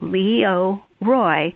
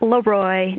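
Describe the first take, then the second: First: The name is said as three separate syllables. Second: The name is run together into two syllables. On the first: The speaker calls it right. "but Leo Roy" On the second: The speaker calls it wrong. "not Leroy"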